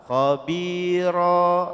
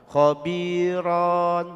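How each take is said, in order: First: The word ends with a long vowel. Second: The word ends with an n sound. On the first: The speaker calls it right. "yang betul adalah khabiro" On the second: The speaker calls it wrong. "fathah tanwinnya dipanjangkan, khabiron. Salah"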